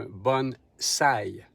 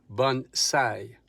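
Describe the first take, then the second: The two takes are said the same way.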